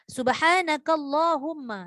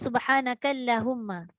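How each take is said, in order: First: The L in Allahumma is thick and heavy. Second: The L in Allahumma is thin and light. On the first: The speaker calls it right. "ni maka tebal" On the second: The speaker calls it wrong. "jangan baca"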